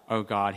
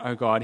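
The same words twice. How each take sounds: First: Lower, trusting call to God; hopeful cry of faith. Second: Faithless man's mildly alarmed cry; doomed cry. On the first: Man of faith calls on God expecting rescue, trusting cry. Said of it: "his anticipation that he is saved". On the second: Faithless man calls on God expecting doom, doomed cry. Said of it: "his anticipation that he is doomed". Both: Acted.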